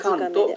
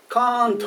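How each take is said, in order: First: The first vowel is strong and short. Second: The first vowel is drawn out long. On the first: The speaker calls it right. "強く、しかし短く発音する" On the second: The speaker calls it wrong. "カーントって言っても、うん、パーンドって言ってもいいけどちょっとおかしい"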